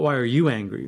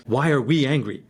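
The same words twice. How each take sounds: First: "you" stressed with a falling tune; the wrong way, with the weight on "you". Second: "we" stressed with a falling tune; the right way, with the weight on "we". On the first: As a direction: lean on "you" as if it blames. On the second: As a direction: lean on "we" to make it shared. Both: Shown as a demonstration.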